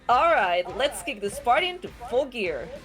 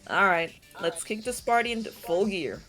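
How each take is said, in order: First: It is said with high, hyped-up enthusiasm. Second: It is said with little enthusiasm.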